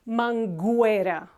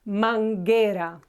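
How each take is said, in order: First: The u after the g is sounded. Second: The u after the g is silent. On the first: The speaker calls it wrong. "not manguera" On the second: The speaker calls it right. "we do not pronounce it. It's manguera"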